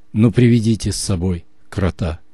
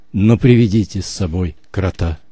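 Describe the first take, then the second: Both takes have the same delivery.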